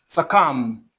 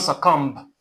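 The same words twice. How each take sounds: First: The b at the end is silent. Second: The b at the end is sounded. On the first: The speaker calls it right. "The B here is not pronounced as well" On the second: The speaker calls it wrong. "not succumb"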